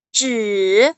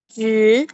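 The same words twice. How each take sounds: First: It is said in the third, rising-falling tone. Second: It is said in the second, rising tone. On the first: "nada ketiga itu naik turun" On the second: "nada kedua itu berarti naik"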